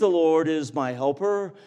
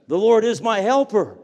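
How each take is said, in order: First: It is said hesitantly and without confidence. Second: It is said boldly and with confidence. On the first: The speaker is unsure the statement is true. The speaker calls it wrong. "Not to be, well, I think" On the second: The speaker is certain the statement is true. The speaker calls it right. "we can say it with all boldness"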